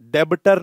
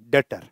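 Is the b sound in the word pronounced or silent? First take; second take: pronounced; silent. First: The b sound is pronounced in the middle. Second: The b sound is left out entirely. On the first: The speaker calls it wrong. "डेबटर नहीं" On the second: The speaker calls it right. "बी is silent."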